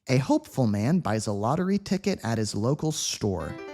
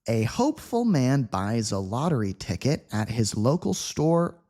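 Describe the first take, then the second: First: The sentence is read quickly at natural speed. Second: The sentence is read slowly and carefully. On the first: "quick native speed" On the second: "at a slow speed"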